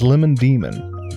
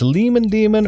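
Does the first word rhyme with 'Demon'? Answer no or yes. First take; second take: no; yes. First: The first word has a short vowel, no rhyme. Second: The first word rhymes with the second word. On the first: The speaker calls it right. "But it's not. It's Lemon Demon" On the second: The speaker calls it wrong. "They're spelled the same way"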